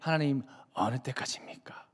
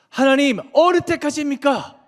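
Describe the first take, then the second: First: It is said softly, without any emotion. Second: It is said with strong, anguished emotion. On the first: The speaker is asking mildly, without distress. The speaker calls it wrong. "아무런 감정 없이 ... 부드럽게 하는 걸까요? 절대 아니에요" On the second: The speaker is pouring out grief and indignation. The speaker calls it right. "분한 감정을 하나님 앞에 지금 막 쏟아내는 거예요"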